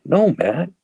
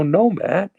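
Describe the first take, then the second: First: High-pitched, louder protest of innocence; indignant denial. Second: Higher, insistent retold protest; exasperated denial. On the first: Retold or imitated. Recovering drinker answering his friend's drug questions, indignant denial. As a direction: deny it emphatically, pitch jumping up. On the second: Recovering drinker fending off his friend's questioning, exasperated denial. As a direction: push back at the accusation, voice pitched up.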